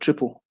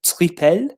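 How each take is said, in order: First: The word is said with a Dutch pronunciation. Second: The word is said with a French pronunciation. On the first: "the Dutch because of like triple" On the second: "the French do it like triple"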